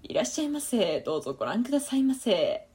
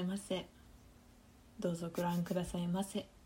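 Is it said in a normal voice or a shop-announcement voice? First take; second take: shop-announcement; normal. First: It imitates a shop announcement voice. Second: It is said in her normal voice.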